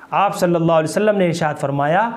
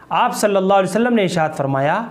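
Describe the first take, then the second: No difference in how they are said.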